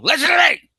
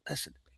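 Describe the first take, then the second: First: It is said loudly, almost shouted. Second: It is said quietly, almost whispered.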